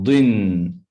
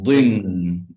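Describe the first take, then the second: Both takes have the same delivery.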